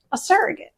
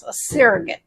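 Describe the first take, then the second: First: Surrogate lifted higher and quieter; higher, questioning. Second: Said in the usual way. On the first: Shown as a demonstration. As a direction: ask it softly with a rise. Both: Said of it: "repeated differently".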